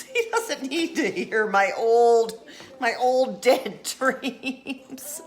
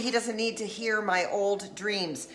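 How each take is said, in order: First: Slower, laughing through the punchline; giggling through dead dreams; laughing retake. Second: Said in the usual way. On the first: Shown as a demonstration. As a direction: crack up on the punchline. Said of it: "corrects punchline, laughing". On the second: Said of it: "re-delivers joke".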